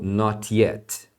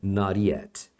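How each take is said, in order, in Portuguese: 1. O som do t é claramente pronunciado, estilo britânico. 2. O t se liga à próxima palavra, estilo americano. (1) "os falantes de inglês britânico, por exemplo, vão ter a tendência de pronunciar os T's" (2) "no inglês americano você vai ouvir"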